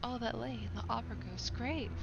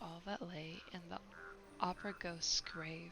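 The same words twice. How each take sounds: First: It is read in a dramatic, theatrical way. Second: It is read in a plain, undramatic way. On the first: The speaker calls it right. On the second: The speaker calls it wrong.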